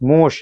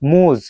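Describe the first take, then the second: First: The word ends with a hissing voiceless sound. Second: The word ends with a buzzing voiced sound. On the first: "দন্তস্বয়ের মতো কেন হলো মুশ?" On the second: "এটার উচ্চারণ হওয়ার দরকার ছিল মুজ"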